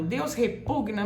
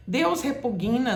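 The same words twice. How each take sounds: First: "repugna" com G mudo, tônica no PU; pronúncia correta. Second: "repugna" dito como "repuguina"; pronúncia errada. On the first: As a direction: diga "repugna" sem vogal entre G e N. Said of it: "tá errado". ("repugna" certo, re-PUG-na) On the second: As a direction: ponha um I depois do G em "repugna". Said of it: "não fala de jeito nenhum". ("repugna" errado, com "gui": re-pu-GUI-na) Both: Shown as a demonstration.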